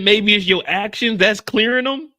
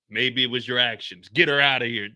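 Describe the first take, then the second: First: Higher, louder smug doctor impression; mock doctor. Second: Said in the usual way. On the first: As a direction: play the know-it-all doctor, a touch hammy. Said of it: "he just looked at her and said". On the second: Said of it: "repeated quote".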